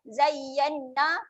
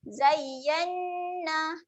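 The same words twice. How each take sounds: First: The nasal n sound is rushed and short. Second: The nasal n sound is held briefly. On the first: The speaker calls it wrong. "Jangan lajukan" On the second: The speaker calls it right. "Tekan sekejap untuk dengunglah"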